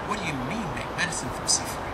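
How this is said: It is said in a gloomy, despairing tone. The message is seen as hopeless. "see it as doom and gloom"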